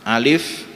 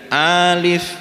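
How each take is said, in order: First: Both vowels are short. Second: The first vowel is held long. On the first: The speaker calls it right. "Alif ini huruf alif ini sama-sama pendek" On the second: The speaker calls it wrong. "berarti a-nya yang panjang"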